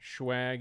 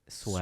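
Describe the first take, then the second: First: The word begins with a 'shw' sound. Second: The word begins with a plain 'sw' sound. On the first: The speaker is from the East Coast. "Schwag if you're from the East Coast" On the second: The speaker is from the West. "Swag if you're from the West"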